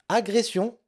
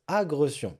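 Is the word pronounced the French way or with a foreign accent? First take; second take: French way; foreign accent. First: It is pronounced the standard French way. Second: It is pronounced with a foreign-sounding accent. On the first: The speaker calls it right. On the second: The speaker calls it wrong.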